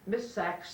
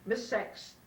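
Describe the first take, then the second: First: The name is said with an 'a' vowel. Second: The name is said with an 'e' vowel. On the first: This is the name as it really is. The speaker calls it right. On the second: Someone else mispronounced the name this way. The speaker calls it wrong.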